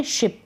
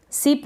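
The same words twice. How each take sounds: First: Said in the usual way. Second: सिप with s in place of sh; wrong pronunciation. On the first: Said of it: "इसको पढ़ेंगे शिप". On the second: Shown as a demonstration. Teacher rejects a reading of ship, mispronounced सिप. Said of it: "सिप नहीं पढ़ेंगे इसको".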